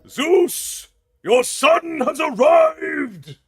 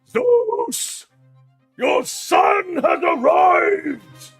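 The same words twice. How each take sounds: First: It is said with mild anger. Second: It is said with much stronger anger.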